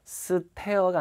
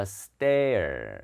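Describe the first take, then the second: First: "stare" with a breathy, aspirated t after the s. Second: "stare" with a hard, unaspirated tt after the s; tense T. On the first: Teacher shows students the sound to avoid, aspirated T. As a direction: say "stare" wrongly, with a puffed t. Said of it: "에스삼의 T는 된 소리". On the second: Teacher corrects the aspirated version for students, tense T. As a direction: tighten the t in "stare", no puff of air, drawn out. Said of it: "T는 된 소리라 그랬잖아요". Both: Shown as a demonstration.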